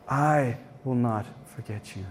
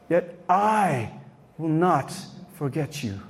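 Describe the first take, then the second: First: Tender repeat. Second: Said in the usual way. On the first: Shown as a demonstration. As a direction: repeat it lower and much softer, tenderly.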